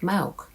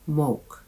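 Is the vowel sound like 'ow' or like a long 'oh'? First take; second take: ow; long oh. First: The vowel sounds like the 'ow' in cow. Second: The vowel sounds like a long 'oh' sound. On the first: The speaker calls it right. "The spelling O U sounds like ow, as in cow or out" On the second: The speaker calls it wrong. "not moke"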